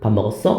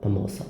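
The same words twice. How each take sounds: First: The voice rises at the end, asking. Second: The voice falls at the end, stating.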